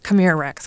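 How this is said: The voice sounds frustrated and impatient. The caller is losing patience and wants to leave. "We became more frustrated"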